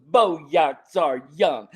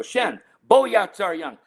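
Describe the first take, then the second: First: Very slow, drawn-out taunt; imitating a cheeky kid making fun; mocking swagger. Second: Put-on higher, drawn-out telling-off of a child; retold dad's reprimand; parental scolding. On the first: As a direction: parrot it back word by word, cocky and teasing. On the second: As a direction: call the child's name and order him to stop. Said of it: "need to understand this phrase, 'Stop doing".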